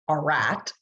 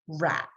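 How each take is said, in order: First: The word starts with a drawn-out 'ar' sound. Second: The word starts with a short, clipped r sound. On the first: The speaker calls it wrong. "We don't say R at" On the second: The speaker calls it right. "We say r at"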